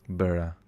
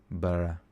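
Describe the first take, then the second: The two takes are said the same way.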